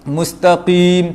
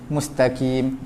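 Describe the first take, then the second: First: The q sound is very heavy and thick. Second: The q sound is fully light like k. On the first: "tebal sangat" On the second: "itu jadi kaf lah"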